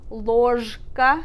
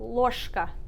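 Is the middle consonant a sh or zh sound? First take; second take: zh; sh. First: The middle consonant is a voiced zh sound. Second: The middle consonant is a voiceless sh sound. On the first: The speaker calls it wrong. "even though it's spelled ложка" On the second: The speaker calls it right. "we say"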